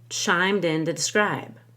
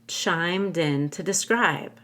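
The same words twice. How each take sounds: First: It is fast, with 'to' said as 'da'. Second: It is slower, with 'to' said as 'ta'. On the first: "If I do it very fast, I'm more likely to use a D" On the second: "If I do it slightly more slowly, I might use a T to make it clear"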